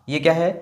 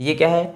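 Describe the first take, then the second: Both takes have the same delivery.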